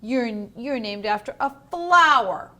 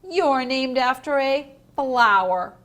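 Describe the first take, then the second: First: You're repeated and punched loud; teacher demonstrating the stress on You're. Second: You're hit loud and mocking; loud taunting stress on You're. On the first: Shown as a demonstration. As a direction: slam the word You're. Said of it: "so that you stress that word". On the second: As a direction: punch You're to mock her. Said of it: "see how they put it in italics".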